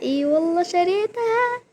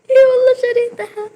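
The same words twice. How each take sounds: First: Higher-pitched excited disbelief; a real but contained excited claim. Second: Very high, loud and fast squealing, near tears; real ecstatic shriek. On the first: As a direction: tell it with rising excitement. Repeats before the louder take. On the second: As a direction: shriek it out with joy. Repeated with louder delivery. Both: Real, not acted.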